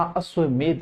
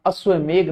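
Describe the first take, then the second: First: अश्वमेध ending in ध, a dental dh; correct final dh. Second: अश्वमेघ ending in घ, a gh sound; wrong final gh. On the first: Teacher correcting students, अश्वमेध ending in dh. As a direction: say अश्वमेध with the tongue on the teeth at the end. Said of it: "अश्वमेध होता है". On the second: Teacher showing the common mistake, अश्वमेघ ending in gh. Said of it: "अश्वमेघ नहीं होता". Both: Shown as a demonstration.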